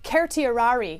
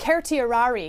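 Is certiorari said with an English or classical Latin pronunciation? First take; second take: Latin; Latin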